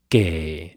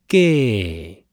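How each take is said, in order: First: The tone starts low and falls. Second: The tone starts high and falls. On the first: This is the word's original citation tone. "嫁是第3 调" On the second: This is the changed tone before another word. "3 变2"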